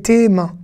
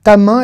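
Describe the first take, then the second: First: TES MAINS with a clear "é"; plural vowel. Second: TA MAIN with an open "a"; singular vowel. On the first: Teacher separating plural from singular, clear é vowel. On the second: Teacher separating singular from plural, clear a vowel. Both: Shown as a demonstration. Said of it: "on se trompe pas".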